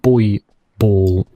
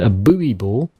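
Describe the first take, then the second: First: Buoy is said with a British pronunciation. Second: Buoy is said with an American pronunciation.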